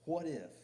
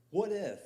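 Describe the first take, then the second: First: "What if?" punched high, falling at the end; emphatic what if. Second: "What if" cried out much higher and louder, falling; shouted what if. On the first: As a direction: land "What if?" as a firm challenge. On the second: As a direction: fling "What if" out to the back row. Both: Acted. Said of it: "Walk down a what-if trail".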